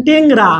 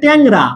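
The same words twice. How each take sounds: First: টেংরা said slowly with a narrow "e"; wrong closed vowel. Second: ট্যাংরা with a wide "æ" in front; open spread vowel. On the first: Teacher showing students a mistake, slow closed-vowel টেংরা. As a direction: keep the first vowel of টেংরা closed, drawn out. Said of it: "আপনি এরকম বললেন টেংরা". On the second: Teacher correcting students, open-vowel ট্যাংরা. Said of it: "এটা হবে ট্যাংরা". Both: Shown as a demonstration.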